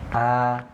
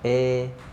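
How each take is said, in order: First: The vowel sounds thick and heavy. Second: The vowel drifts toward an e sound. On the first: "kalau terlalu lebar, membuka mulutnya nanti dia akan bunyinya tebal" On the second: "atau miring itu kurang de, membuka mulutnya"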